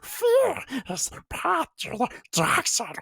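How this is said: It is said in a Gollum voice.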